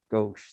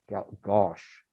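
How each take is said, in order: First: Gauche said as "gohsh", with a long O; corrected pronunciation of gauche. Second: Gauche fumbled as "gosh", after a false start; hesitant attempt at gauche, rhyming with "posh"; unsure pronunciation. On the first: Shown as a demonstration. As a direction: say gauche to rhyme with "brioche". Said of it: "That's how you say it". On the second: Real, not acted. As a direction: stumble on gauche, vowel too open, like "gosh". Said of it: "don't even know how to s-, how to pronounce that".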